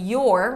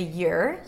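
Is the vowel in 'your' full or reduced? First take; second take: full; reduced. First: The word is said with a full vowel. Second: The word is said with a reduced vowel.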